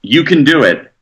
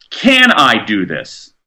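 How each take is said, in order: First: Said in the usual way. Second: "Can I do this?" asked slowly and thoughtfully, falling at the end; slow questioning. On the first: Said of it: "instead of going into an encounter saying". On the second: Shown as a demonstration. Guest asks himself before a meeting, slow and thoughtful. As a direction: weigh the question, said at half speed. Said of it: "you're better off going into an encounter saying, asking".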